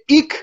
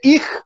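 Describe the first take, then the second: First: The word ends with a hard k sound. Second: The word ends with a rough kh sound. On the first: This is how people in the north say it. "شمال میری میشه ایک" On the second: This is how people in the south say it. "یه جنوب میری میشه ایخ"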